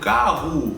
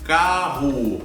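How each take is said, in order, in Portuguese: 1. A vogal final soa como um U reduzido. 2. A vogal final soa como um U reduzido.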